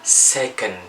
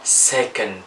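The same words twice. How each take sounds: No difference in how they are said.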